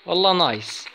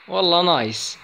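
No difference in how they are said.

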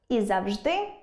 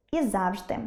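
First: Завжди as завЖДИ; завжди with final-syllable stress; double stress. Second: Завжди as ЗАВжди; завжди with first-syllable stress; double stress. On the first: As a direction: lean on ЖДИ in завжди, rising. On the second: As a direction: lean on ЗАВ in завжди, falling. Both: Shown as a demonstration. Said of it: "можуть мати подвійний наголос".

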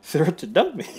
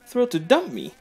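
First: Flat bitter repeat. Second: Bitter sneer. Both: Acted. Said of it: "I don't know why I said it like that".

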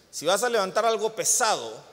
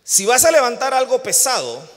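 First: Said in the usual way. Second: "Si vas a levantar algo pesado" said higher and louder; emphatic louder take. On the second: Shown as a demonstration. Preacher calling out to the congregation, "Si vas a levantar algo pesado" higher and louder. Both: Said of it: "todos los que están como yo".

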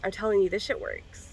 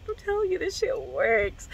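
First: Said in the usual way. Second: "I'm telling you" up high, then "this shit works" dragged out slowly; slow the words down to sell "this shit works"; drawn-out emphasis. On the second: Real, not acted. Insisting to viewers the weed works, slow and emphatic. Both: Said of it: "repeats it with slow emphasis".

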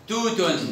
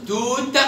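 First: توت said as "tootun"; damma tanween. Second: High توت ending on a released t; sukun ending. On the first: Teacher gives an example, توت ending in -un. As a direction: add -un to توت. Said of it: "أو في التنوين". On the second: Teacher gives an example, توت stopped on t. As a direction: say توت with no final vowel. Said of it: "وفي السكون". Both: Shown as a demonstration.

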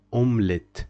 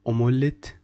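First: Omelette with silent O, /omlet/; right way. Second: Omelette with the O sounded, /omolet/; wrong way. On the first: Teacher showing correct omelette, middle O silent. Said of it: "we prefer to make it silent". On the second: Teacher showing the wrong omelette, O sounded. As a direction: omelette said wrong, O fully voiced. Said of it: "don't say omelette". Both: Shown as a demonstration.

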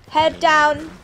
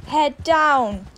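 No difference in how they are said.

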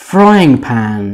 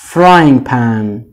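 No difference in how they are said.

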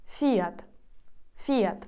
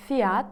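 First: Fiat as "FI-at", falling; stress on I. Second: Said in the usual way. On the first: Shown as a demonstration. Teacher showing the Spanish stress, stress on the I. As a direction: punch the I in Fiat. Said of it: "Наголос змінюється на І". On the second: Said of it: "українською звучить як".

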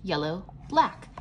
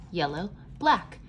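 The two takes are said the same way.

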